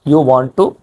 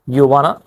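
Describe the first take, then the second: First: Want to is said in full. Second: Want to is reduced to a short form.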